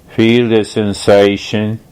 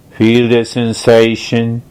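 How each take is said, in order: Both takes have the same delivery.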